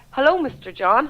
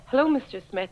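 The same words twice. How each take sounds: First: "Hello, Mister John" drawn out slowly with a rising end; a cheery, slow "Hello, Mister John"; slow sing-song greeting. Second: Said in the usual way. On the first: Retold or imitated. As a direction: mock-friendly slip of the tongue, said slowly. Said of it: "I said". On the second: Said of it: "instead of saying".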